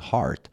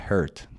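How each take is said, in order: First: The vowel is a long 'ah' sound. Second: The vowel is a short 'e' sound. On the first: The speaker calls it right. "تلفظ هارت" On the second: The speaker calls it wrong. "یه common error هست که خیلی از زبان آموزا میگن هرت"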